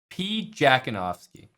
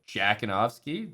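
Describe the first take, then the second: First: The name starts with a separate P sound. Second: The name starts without any P sound. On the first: "I like saying it that way" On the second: "The P is silent"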